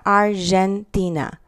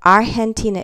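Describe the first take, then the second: First: Argentina said ar-zhen-tee-na; English-style soft G. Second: Argentina said ar-hen-tee-na. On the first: Teacher showing students the wrong way, G as zh. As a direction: put a zh sound in Argentina for the G. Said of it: "is not Argentina". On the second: Teacher contrasting right and wrong for students, G as H. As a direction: say Argentina with a breathed H for the G. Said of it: "it's a h". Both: Shown as a demonstration.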